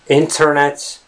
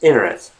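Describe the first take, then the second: First: The T sound after the N is clearly pronounced. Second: The T sound after the N is dropped. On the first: The speaker calls it wrong. "So it's not the internet" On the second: The speaker calls it right. "it's internet"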